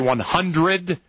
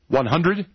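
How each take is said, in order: First: It is said in a formal stage accent. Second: It is said in an everyday American accent. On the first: "you say 100" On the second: "Instead of saying 100"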